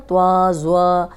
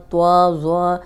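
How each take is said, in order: First: توا and زوا with rounded lips; mock the students' rounded توا; wrong rounded ta. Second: توا, زوا said with rounded lips; wrong rounded ta. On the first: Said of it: "اس طرح اکثر student پڑھتے ہیں". (ہونٹ گول کر کے غلط تلفظ) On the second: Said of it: "زوا نہیں ہے". (غلط گول ہونٹوں والا تلفظ) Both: Shown as a demonstration.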